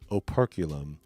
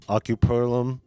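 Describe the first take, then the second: First: The word starts with 'oper' and sounds in order. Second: The word starts with 'ocu' and has swapped sounds. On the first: This is the proper pronunciation. "is the proper pronunciation" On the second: Other people say it this way. "how other people have pronounced it"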